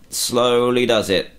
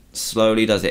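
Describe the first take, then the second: First: Drawn out, slow and careful; slowly. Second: Said in the usual way. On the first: Shown as a demonstration. Gamer easing his character along, slowly and carefully. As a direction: ease each word out slowly.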